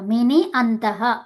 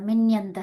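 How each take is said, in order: First: The two words are kept apart, vowels intact. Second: The vowel becomes y, joining both words. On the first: "ఇక్కడ ఇకారం ఉంది. ఇక్కడ అకారం ఉంది" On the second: "ఇకారం ఉంది... అకారం ఉంది... యకారం అవ్వాలి"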